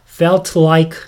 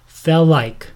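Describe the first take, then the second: First: The t is pronounced before 'like'. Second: The t is dropped and the words run together. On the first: "T 발음할 때 L 발음과 입모양, 현모양 위치가 비슷하기 때문에 felt like 이렇게 할 수도 있지만" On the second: "그냥 붙여서 felt like"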